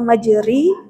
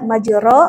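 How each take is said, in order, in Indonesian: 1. Vokal setelah r adalah i penuh. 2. Vokal setelah r adalah a terbuka yang jelas. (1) "atau majuri" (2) "jangan lagi ada yang membaca majuro"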